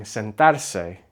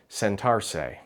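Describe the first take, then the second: First: Sentarse with short vowels and tapped r; correct Spanish pronunciation. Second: Sentarse drawn out with an English r; anglicized sentarse, long middle and "say" ending; lengthened anglicized mispronunciation. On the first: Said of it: "they'll just lengthen". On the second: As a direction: say sentarse as "sen-TARR-say", stretched out. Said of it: "they'll just lengthen the word". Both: Shown as a demonstration.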